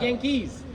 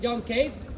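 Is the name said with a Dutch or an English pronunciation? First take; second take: English; Dutch. First: It is said with an English pronunciation. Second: It is said with a Dutch pronunciation. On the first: "pronounce it in English way" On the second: "If you combine them, you get Jan Kees"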